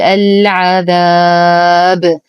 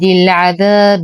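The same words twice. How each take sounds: First: It ends on a bouncing stopped b, long vowel. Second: It flows on with short vowel, voweled b. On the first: The reciter pauses at this word. "فنقف بالباء الساكنة المقلقلة بسكون عارض فنقول العذاب" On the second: The reciter continues without pausing. "ولو وصلنا لعاد العارض للسكون إلى طبيعته بمد طبيعي بمقدار حركتين وكسرت الباء دون قلقلة"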